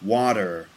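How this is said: The middle consonant is a soft D-like sound. This is the American pronunciation. "they'd say water"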